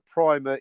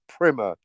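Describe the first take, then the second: First: The first vowel is a long 'eye' sound. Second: The first vowel is a short 'i' sound. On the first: The speaker calls it wrong. "Primer is the incorrect pronunciation of that word" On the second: The speaker calls it right. "It's primer. It's not about paint"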